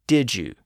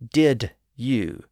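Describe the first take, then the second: First: The words are said quickly with the 'd' and 'y' merged into 'j'. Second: The words are said slowly with a separate 'd' and 'y'. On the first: "Sounds like D-I-J-O-O" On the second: "When we say it slowly, it's clear"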